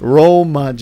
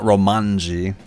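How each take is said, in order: First: No n sound comes before the final syllable. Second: An n sound comes before the final syllable. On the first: The speaker calls it right. "No N" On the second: The speaker calls it wrong. "Not Romanji"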